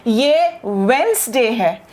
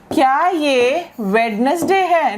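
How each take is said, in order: First: "वेडनेसडे" slowly as wens-day; silent D. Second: "वेडनेसडे" slowly as wed-nes-day; slow, three-part "वेडनेसडे" with its D; sounded D. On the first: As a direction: correct "वेडनेसडे" to two syllables, no first D. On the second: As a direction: question the wrong "वेडनेसडे", D voiced. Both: Shown as a demonstration. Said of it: "डी है इसका sound नहीं है".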